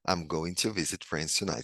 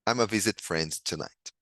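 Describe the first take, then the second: First: Going to is said in full, unreduced. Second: Going to is reduced to a single vowel.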